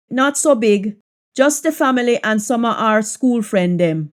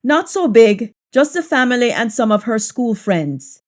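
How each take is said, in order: First: Relaxed Jamaican patois. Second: Said in the usual way. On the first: Shown as a demonstration. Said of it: "patois version of the line". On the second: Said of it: "English version before patois".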